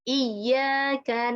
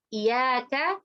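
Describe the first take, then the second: First: The y sound is doubled and held. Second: The y sound is single and short. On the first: Only to You. The speaker calls it right. "itu kan bertasydid" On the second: To your sunlight. The speaker calls it wrong. "kalau kita menghilangkan tasydidnya"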